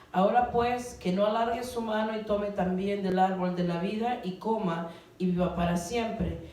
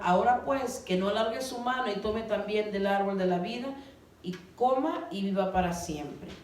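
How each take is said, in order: The two takes are said the same way.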